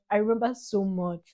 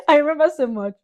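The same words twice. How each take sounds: First: Said in the usual way. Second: Remember so much said high and loud; louder, higher restatement. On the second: Real, not acted. Daughter insisting to dad she remembers, loud. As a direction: lift it up loud.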